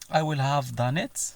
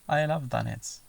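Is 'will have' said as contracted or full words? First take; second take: full; contracted. First: Each word is said fully and separately. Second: The words are run together and shortened. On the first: "عوض ما تسمع" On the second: "connected speech ... mainly when people talk fast"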